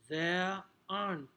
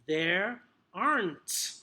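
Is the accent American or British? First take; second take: British; American. First: It is said in a British accent. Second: It is said in an American accent. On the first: "the U K pronunciation, received pronunciation" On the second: "If it's going to be more American"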